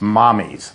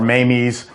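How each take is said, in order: First: The first vowel sounds like the one in mom. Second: The first vowel sounds like the one in day. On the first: This is the actual Italian name, meaning mother. The speaker calls it right. "It's Italian for mother. It's Mommy's" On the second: This is how the spelling seems to read. The speaker calls it wrong. "or Mamie's"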